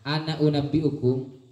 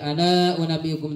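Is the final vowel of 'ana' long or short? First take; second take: short; long. First: The last vowel of 'ana' is short. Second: The last vowel of 'ana' is held long. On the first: The speaker calls it right. "alif tidak dibaca ketika disambung" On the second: The speaker calls it wrong. "tak boleh baca"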